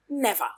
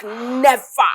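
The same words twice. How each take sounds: First: Said in the usual way. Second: Defiant. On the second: Acted. Defiant refusal.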